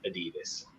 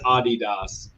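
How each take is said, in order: First: It is said with an American English pronunciation. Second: It is said with a German pronunciation. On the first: The speaker calls it wrong. "in American English, we all stupidly say Adidas" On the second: The speaker calls it right. "It is Adidas because uh, I also speak German"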